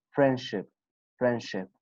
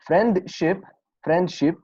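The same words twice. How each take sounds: First: Friendship said as frienship, no t between n and sh; t dropped. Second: Friendship with a clear t between n and sh; with the t sounded. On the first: Teacher demoing the silent t rule in friendship. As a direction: glide from n straight into sh in friendship. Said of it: "when you apply this rule, you will say". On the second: Teacher demoing the common full pronunciation of friendship. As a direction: say friendship pronouncing every consonant. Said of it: "Most of the people reading like this". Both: Shown as a demonstration.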